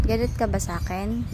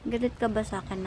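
First: "Galit ka ba sa akin" with a rising end; questioning rise. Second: "Galit ka ba sa akin" ending on a fall; falling tune. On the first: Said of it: "asking pet, rising". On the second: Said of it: "same question, falling". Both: Shown as a demonstration.

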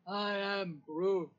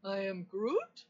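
First: Slow, drawn-out Groot, falling at the end; Groot impression. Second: Questioning Groot, rising sharply on the last word; Groot impression. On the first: Assistant doing another requested impression, slow declarative Groot. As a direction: state it slowly as Groot. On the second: Assistant doing another requested impression, questioning Groot voice. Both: Shown as a demonstration. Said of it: "Do another impression".

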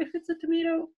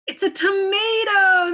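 First: Said in the usual way. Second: Higher and louder, big cheerful announce; excited reveal. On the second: Acted. Teacher revealing the answer to children, excited and loud. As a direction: burst out with the answer.

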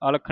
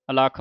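First: ਅਲਖ said wrongly as "alkh", first vowel dropped; wrong pronunciation. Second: ਅਲਖ said fully as "alakh"; correct pronunciation. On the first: Teacher showing the sangat the wrong ਅਲਖ, as "alkh". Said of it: "ਅਲਖ ਨਹੀਂ ਪੜ੍ਹ ਦੇਣਾ ਇਹਨੂੰ". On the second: Teacher giving the sangat the correct ਅਲਖ, said "alakh". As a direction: give ਅਲਖ all three syllables, a-la-kh. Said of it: "ਅਲਖ ਪੜ੍ਹਨਾ ਹੈ". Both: Shown as a demonstration.

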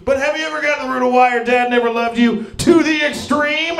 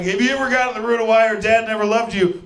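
First: High, fast, hyped-up shouting; extreme ad shout. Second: Raised pitch, rapid-fire delivery; energy-drink therapist pitch. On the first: Energy drink therapist sells therapy to the extreme, shouting. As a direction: shout it like an extreme sports advert, stretching the last word. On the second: Therapist pitches an energy drink style of therapy, hyped. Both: Acted.

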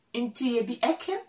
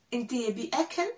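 Both takes have the same delivery.

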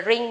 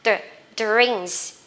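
First: Drink with the d softened and the ending dropped; wrong drink. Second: Drinks with a firm d before the r; clear D in drinks. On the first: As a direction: say "drink" as a learner's mistake, weak first sound. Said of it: "Các bạn đừng gọi là drink nhá". (drink đọc sai âm đầu) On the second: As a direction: sound out "Dr", then "drinks" with final s. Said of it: "phải có chữ đ các bạn ha". (drinks đọc rõ âm đ ở đầu) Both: Shown as a demonstration.

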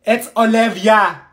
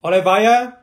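First: "Olivia" said as o-LIV-ee-a, slowly; correct pronunciation. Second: "Olivia" said as o-li-VYE-a; mispronounced name. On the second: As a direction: stretch "Olivia" with a long VYE in the middle. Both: Acted. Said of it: "It's pronounced Olivia".

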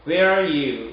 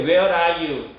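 First: "Where are you?" as "wheeere-you"; "Where are you?" with "are" swallowed; lengthened "where". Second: "Where are you?" with a separate, overdone "are"; laboured learner R. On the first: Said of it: "where 길게 발음해 주시면". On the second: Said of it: "이러지 마시고 그냥". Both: Shown as a demonstration.

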